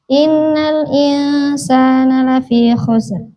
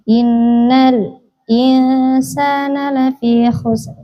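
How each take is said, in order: First: It runs straight into insana without a stop. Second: A brief stop comes right before insana. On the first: "Yang pertama tahqiq" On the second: "Yang kedua sakta"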